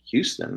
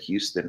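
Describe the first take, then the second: First: It is said the local New York way. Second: It is said like the Texas city's name. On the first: Locals are correcting the name. The speaker calls it right. "they were like, Houston" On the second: The speaker is an outsider to the city. The speaker calls it wrong. "I said Houston ... we're not talking about Texas"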